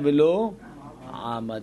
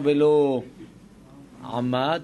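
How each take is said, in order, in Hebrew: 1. הפועל מוטעם על ההברה הראשונה שלו. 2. הפועל מוטעם על ההברה האחרונה שלו. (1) "היא תבוא מלעל" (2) "היא לא יקרא"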